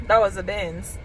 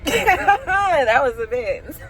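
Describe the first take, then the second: First: Said in the usual way. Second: Drawn out slowly through laughter; laughing disbelief. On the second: Real, not acted. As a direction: laugh while repeating it.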